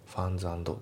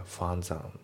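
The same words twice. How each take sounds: First: ファンズアンド fast, each word separate; ファンズアンド unlinked. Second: ファンズアン, ferns and run together; ファンズアン linked as one. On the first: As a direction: say ferns and apart. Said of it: "ファンズアンドじゃなくて". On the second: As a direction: link ferns into and. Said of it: "リンキングで". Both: Shown as a demonstration.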